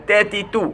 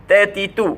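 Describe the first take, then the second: Both takes have the same delivery.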